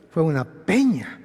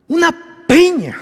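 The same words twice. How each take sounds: First: Said in the usual way. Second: "Una peña" más alta y fuerte; peña enfatizada. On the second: Acted. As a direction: recalca "peña" con fuerza. Repite la palabra peña. (subraya "peña" con énfasis)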